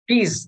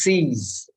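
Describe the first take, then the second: First: The word begins with a k sound. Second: The word begins with an s sound. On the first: The speaker calls it wrong. "If you say keys, you're wrong" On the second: The speaker calls it right. "It is C's"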